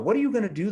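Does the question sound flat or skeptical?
skeptical. The question is asked in a skeptical, doubting tone. The speaker calls it right. "the skepticism"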